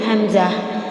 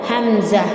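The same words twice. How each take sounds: No difference in how they are said.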